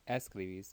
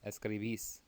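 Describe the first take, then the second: First: The stress falls before the last syllable. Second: The stress falls on the last syllable. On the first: The speaker calls it wrong. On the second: The speaker calls it right. "Make sure you're hitting that accent on the last syllable"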